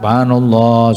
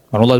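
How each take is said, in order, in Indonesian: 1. Frasa ini diucapkan pelan dan tenang. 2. Frasa ini diucapkan cepat dan terburu-buru. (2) "Coba cepat-cepat"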